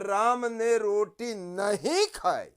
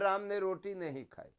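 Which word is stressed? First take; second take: नहीं; none. First: Extra stress falls on the word nahin. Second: No word is given special stress. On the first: It questions whether the bread really was not eaten. "नहीं पर जोर पड़ रहा है" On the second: A plain statement that the bread was not eaten. "साधारण वाक्य में हम कहते हैं"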